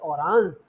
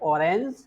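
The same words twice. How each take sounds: First: It is said with a German pronunciation. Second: It is said with an English pronunciation. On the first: "but in German, it is called orange" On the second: "In English, it is called orange"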